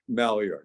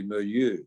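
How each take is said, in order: First: It is said with an American Philadelphia pronunciation. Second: It is said with a French-style pronunciation. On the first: The speaker calls it wrong. "I pronounce it like a Philadelphia person that I am" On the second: The speaker calls it right. "No, it's really"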